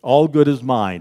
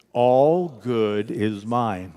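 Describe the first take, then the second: First: Said in the usual way. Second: Extremely slow, stretched-out words; drawn-out congregational affirmation; slow group affirmation. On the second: Real, not acted. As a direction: draw out each word for unison. Leads repeated affirmation, slower.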